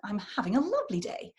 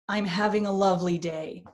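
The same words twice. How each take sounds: First: Important syllables are marked by pitch changes. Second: Important syllables are made louder and heavier. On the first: "You get those changes of pitch" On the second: "they tend to stress with volume or weight of syllables"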